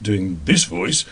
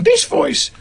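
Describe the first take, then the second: First: Said in the usual way. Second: Much higher, slow put-on character voice; character voice demo. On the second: Shown as a demonstration. Actor showing radio voice passes, high character voice. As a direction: pop up into the second character's voice. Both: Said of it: "doing a pass first doing this voice".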